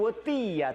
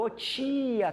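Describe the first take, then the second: First: The T is crisp and plain, as in Portugal. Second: The T is dragged, Carioca-style, like 'chia'.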